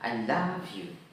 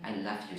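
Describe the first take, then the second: First: The vowel in the middle word is drawn out long. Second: The vowel in the middle word is short and weak. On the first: It means laughing at the listener. "love itu kalau dibaca panjang itu artinya menertawakan" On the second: It means loving the listener. "short sounds, maka itu mencintai"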